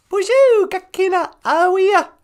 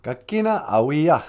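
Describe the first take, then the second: First: Much higher, louder puppet voice; high puppet greeting. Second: Said in the usual way. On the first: Pretend. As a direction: greet everyone as a squeaky puppet.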